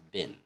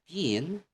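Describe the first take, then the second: First: It is said in an American accent. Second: It is said in an English accent.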